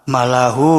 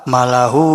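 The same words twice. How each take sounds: Both takes have the same delivery.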